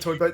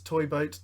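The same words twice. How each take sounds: First: It is said quickly without careful pronunciation. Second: It is said carefully with clear pronunciation. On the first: The speaker calls it right. "Just do it fast and don't think about it" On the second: The speaker calls it wrong. "You're trying to pronounce it really well"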